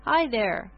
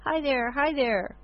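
First: Put-on high, bright baby call; happy baby answer. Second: Put-on high, gleeful baby voice; baby squeal. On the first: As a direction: call back like a delighted baby. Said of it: "Eric continued to laugh and answer". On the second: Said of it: "squeal with glee". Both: A narrator's reading.

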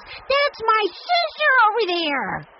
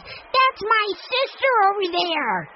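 First: Much higher, louder, slow shout; top-of-voice shout. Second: Top-of-voice shout. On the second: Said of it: "shouted at the top of his voice". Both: A narrator's reading. Benny shouts to the crowd that Jessie is his sister. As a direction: yell it proudly to the whole crowd.

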